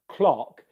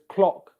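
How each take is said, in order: Both takes have the same delivery.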